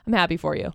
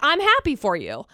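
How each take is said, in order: First: The voice sounds flat and sarcastic. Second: The voice sounds warm and sincere. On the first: The speaker does not seem to mean it. The speaker calls it wrong. "But instead, it's always" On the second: The speaker truly means it. The speaker calls it right. "if you said, I'm happy for you, I would totally believe that"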